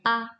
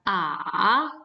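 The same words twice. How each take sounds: First: The pitch is short, light and unmarked. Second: The pitch dips low then rises. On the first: "nada yang kelima itu ... normal. Misalnya A" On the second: "nada ketiga ... seperti V, itu kita pengucapannya adalah A"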